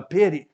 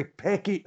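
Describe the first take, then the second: First: "petty" said cleanly as the fix; corrected word. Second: "pecky" said by mistake for petty; the slip "pecky", then fixed; slip of the tongue. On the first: Preacher correcting himself to his flock. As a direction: set the slip right with "petty". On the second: Preacher stumbling on a word to his flock. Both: Real, not acted. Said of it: "uh, petty".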